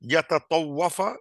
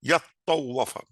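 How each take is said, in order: First: The ta syllable is said separately and fully. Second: The ta sound merges into a doubled t. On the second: "উচ্চারণ সুবিধার্থে কখনো ই- ই- তাটা মানে অ্যাসিমিলেট করে যায়"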